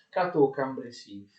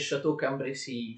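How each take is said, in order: First: The first word begins with a 'k' sound. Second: The first word begins with a 'sh' sound. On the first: The speaker calls it right. "Quindi Cateau Cambrésis" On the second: The speaker calls it wrong. "Non si dice Château Cambrésis, Château è un castello, si scrive C H A"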